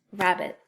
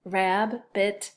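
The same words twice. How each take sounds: First: Said in the usual way. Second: Rab-bit with a gap between "rab" and "bit"; Rab-bit, two separate beats; split into syllables. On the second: Shown as a demonstration. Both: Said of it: "And second syllable".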